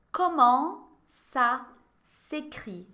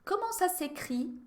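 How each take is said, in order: First: "Comment ça s'écrit?" stretched out very slowly, each syllable apart; very slow model. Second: "Comment ça s'écrit?" said clearly for the class; model phrase. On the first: ("Comment ça s'écrit?" bem devagar, sílaba por sílaba) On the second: (frase-modelo dita para a turma repetir) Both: Shown as a demonstration. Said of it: "Répétez".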